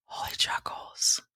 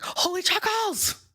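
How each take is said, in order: First: Soft whisper of God naming it; whispered divine voice. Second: Much higher, thrilled announcement; excited announcement. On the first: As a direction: whisper it like a revelation. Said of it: "God was like". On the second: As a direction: squeal the name to your friend. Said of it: "I called Nisha and I'm like". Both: Retold or imitated.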